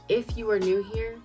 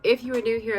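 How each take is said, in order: First: The phrase is said at a slower pace. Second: The phrase is raced through quickly. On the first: The speaker calls it right. "Why don't I slow down? ... Let's start over" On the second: The speaker calls it wrong. "Why am I always racing through the intro?"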